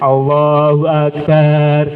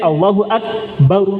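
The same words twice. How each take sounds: First: The last syllable of Akbar is drawn out long. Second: The last syllable of Akbar is short. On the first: It changes the meaning to refer to a drum. The speaker calls it wrong. "barnya panjang Pak, artinya mengubah maknanya" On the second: God is the greatest. The speaker calls it right. "harusnya pendek"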